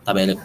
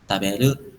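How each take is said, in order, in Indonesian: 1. Diucapkan sebagai pernyataan biasa. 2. Diucapkan dengan nada bertanya. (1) "taberu itu artinya kan saya akan makan" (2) "kalau misalkan kita merubah aksennya, ya jadi taberu berarti kayak makan, gitu. Nanya mau makan"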